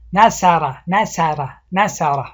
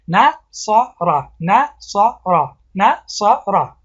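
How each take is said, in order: First: نصارا with a thin light س sound; wrong pronunciation demo. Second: نصارا drawn out very slowly, heavy ص; slow correct demo. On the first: Teacher showing the wrong version to the class. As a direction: mispronounce نصارا with a light س instead of ص. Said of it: "سا بگوییم". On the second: Teacher slowly modelling the word for students. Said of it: "نیا کنین". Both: Shown as a demonstration.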